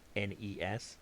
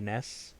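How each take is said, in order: First: It is spelled out as three separate letters. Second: It is pronounced as a single word. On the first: The speaker calls it right. "Say the letters" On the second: The speaker calls it wrong. "you're wrong"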